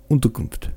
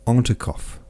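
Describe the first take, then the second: First: Unterkunft said carefully in proper German; correct German word. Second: Unterkopf, a Frenchman's garbled try at Unterkunft; mangled German word. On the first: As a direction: give Unterkunft its German sounds, oon-ter-koonft. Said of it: "Pierre repeated". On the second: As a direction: say Unterkopf as a clumsy foreign guess, ending in kopf. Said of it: "How do you say it?". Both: Acted.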